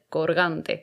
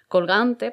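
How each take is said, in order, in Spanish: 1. La consonante antes de la g es una r. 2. La consonante antes de la g es una l. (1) "podría pasar a ser corgante"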